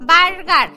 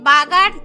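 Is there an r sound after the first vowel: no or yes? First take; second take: yes; no. First: The first vowel has an r sound after it. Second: The first vowel has no r sound after it. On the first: The speaker calls it right. "না না না না না বার্গার" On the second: The speaker calls it wrong. "আমি নাকি ঠিক করে উচ্চারণও করতে পারি না"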